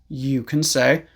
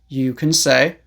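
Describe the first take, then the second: Both takes have the same delivery.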